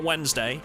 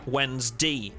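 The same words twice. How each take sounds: First: Wednesday ending in a full DAY; Wednesday as WENZ-DAY. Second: Slow Wednesday ending in a clear DEE; Wednesday as WENS-DEE. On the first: Streamer showing the supposedly incorrect way, Wednesday said WENZ-DAY. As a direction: say Wednesday with "day" as the last syllable. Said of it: "that's incorrect, and you shouldn't say it like that". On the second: Streamer giving mock dictionary rule, Wednesday said WENZ-DEE. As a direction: stretch Wednesday out, last syllable said "dee". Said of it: "it's pronounced, uh, in the dictionary as". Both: Shown as a demonstration.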